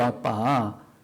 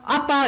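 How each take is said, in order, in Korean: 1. 보통 목소리로 말했어요. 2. 어린아이 목소리로 말했어요. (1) "그냥 아빠예요" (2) "어린애가 아빠 이런 소리가 아니고"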